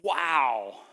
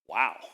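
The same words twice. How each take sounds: First: It sounds pleasantly impressed. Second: It sounds doubtful and suspicious.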